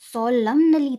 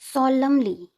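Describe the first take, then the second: First: The n sound is pronounced after the m. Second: The n sound is silent after the m. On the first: The speaker calls it wrong. "सोलमनली तो नहीं है ना ये" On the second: The speaker calls it right. "एन cut जाता है"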